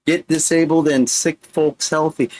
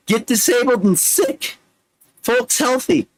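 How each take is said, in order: First: Said in the usual way. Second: Much higher, performed reading; high recitation voice. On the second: Acted. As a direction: recite it up high with a rising lift. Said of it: "read it like I'm the Micro Machine Man".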